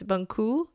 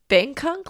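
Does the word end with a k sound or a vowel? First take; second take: vowel; k sound. First: The word ends with an open vowel. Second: The word ends with a k sound. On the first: The speaker calls it right. "I think I said that right this time" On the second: The speaker calls it wrong. "It's not Bangkok, like I've been saying"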